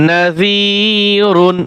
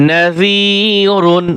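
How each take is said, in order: Both takes have the same delivery.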